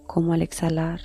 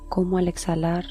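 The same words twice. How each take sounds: The two takes are said the same way.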